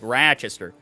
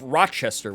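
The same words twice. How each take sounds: First: It is said in the speaker's local accent. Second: It is said the way it is spelled. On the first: "I also say Rochester, like Rochester" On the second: "which is how it's spelled"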